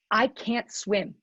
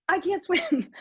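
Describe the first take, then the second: First: Said in the usual way. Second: Higher, laughing as she admits it. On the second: Real, not acted. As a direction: laugh through the confession. Repeats it with a laugh.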